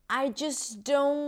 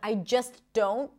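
First: The T at the end of 'just' is dropped. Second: The T at the end of 'just' is pronounced. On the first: "she's not pronouncing the T in the word just, and that is okay" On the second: "Instead of I just don't"

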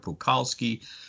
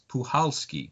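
First: The C in the name is sounded. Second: The C in the name is silent. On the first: The speaker calls it wrong. "I was pronouncing it Puchalski" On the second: The speaker calls it right. "the C is silent. It's Puchalski"

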